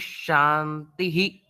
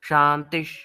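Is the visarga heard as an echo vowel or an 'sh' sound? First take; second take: echo vowel; sh sound. First: The visarga is sounded with an echo vowel. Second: The visarga becomes an 'sh' sound.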